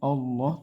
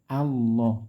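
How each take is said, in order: First: The word begins with an o sound. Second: The word begins with a clear a sound. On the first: The speaker calls it wrong. "bukan Allah" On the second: The speaker calls it right. "a dulu baru loh"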